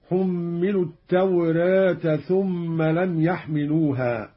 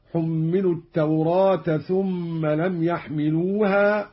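First: "التوراة" tilted toward e, "tawreeta"; lightly front the long aa of "التوراة"; taqlil. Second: "التوراة" with a wide open aa, "tawraata"; open fath. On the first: Teacher demonstrating second reading, "التوراة" with taqlil. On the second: Teacher demonstrating first reading, "التوراة" with open aa. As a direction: recite "التوراة" keeping the long vowel fully open. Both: Shown as a demonstration. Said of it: "بالفتح والتقليل".

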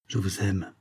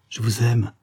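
First: Soft, muted declaration of love; hushed and understated; muffled voice. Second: Lightly voiced young woman in love; mildly sighing, lovestruck reply; sighed declaration. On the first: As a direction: confess it quietly, voice held back. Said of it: "d'une voix sourde". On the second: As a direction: answer with a gentle lift, more openly. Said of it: "soupira-t-elle". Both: A narrator's reading.

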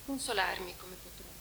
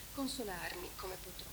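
First: Said in the usual way. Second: "Consolarmi come potrò" in a soft, unvoiced whisper; a hushed, grieving whisper of "Consolarmi come potrò"; whispered refrain.

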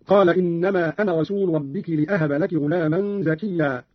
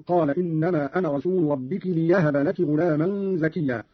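First: Said in the usual way. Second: "ليهب" said li-yahaba; slow recitation, clear y in "ليهب"; ya replaces hamza. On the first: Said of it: "بالياء بدل الهمز". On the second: Shown as a demonstration. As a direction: glide a y into "ليهب" with no glottal stop. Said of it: "قرأ قالون بالياء بدل الهمز هكذا".

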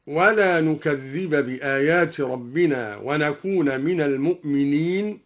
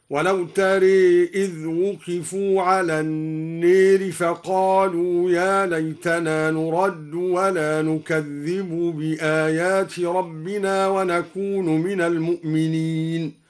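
First: Said in the usual way. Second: نكذب and نكون with final u, nukadhdhibu, nakunu; Duri reading. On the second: Shown as a demonstration. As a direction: end نكذب and نكون on u, slowly. (برفع نكذب ونكون) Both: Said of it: "قرأ الدوري برفع نكذب ورفع نكون هكذا".

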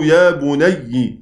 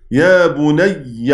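First: يا بني ending in a doubled y plus short i; kasra ending. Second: يا بني ending in a doubled y plus short a; fatha ending. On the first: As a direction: slowly show يا بني as "ya bunayyi". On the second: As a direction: slowly show يا بني as "ya bunayya". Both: Shown as a demonstration. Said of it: "الفتحة والكسر عادي".

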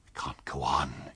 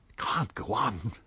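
First: Slow, whispered mutter to himself. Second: Said in the usual way. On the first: A narrator's reading. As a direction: breathe it out under his breath, slowly. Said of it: "he was muttering".

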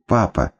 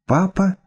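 First: Папа! called out glad and falling; little girl running to her dad; happy cry. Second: Папа? shot up high, questioning; a shocked girl seeing her father; startled cry. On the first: Маленькая дочь бежит к отцу, радостно. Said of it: "побежала и прыгнула к нему на руки". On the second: Девочка, выскочив из комнаты, потрясённо и высоко. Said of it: "выскочила из комнаты Шурка". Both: Acted.

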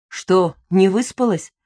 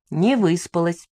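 First: НЕ ВЫСПАЛАСЬ asked slowly with a pitch swell; slow query, pitch up then down on ВЫСПАЛАСЬ; questioning. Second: НЕ ВЫСПАЛАСЬ stated plainly, pitch settling after НЕ; understated confession, ВЫСПАЛАСЬ kept level; admitting. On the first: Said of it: "спросил Лёшка". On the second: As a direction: admit НЕ ВЫСПАЛАСЬ without questioning lift. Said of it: "призналась я". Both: A narrator's reading.

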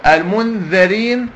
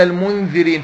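First: المنذرين as "al-mundharīn", slowly; fatha on dhal. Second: المنذرين as "al-mundhirīn"; kasra on dhal. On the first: Teacher offering students the first option, fatha on dhal. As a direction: stretch out المنذرين with "dha" in the middle. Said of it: "بفتحة الذال ولا بكسرة الذال". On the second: Teacher offering students the second option, kasra on dhal. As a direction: put "dhi" in the middle of المنذرين. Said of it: "ولا بكسرة الذال". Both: Shown as a demonstration.

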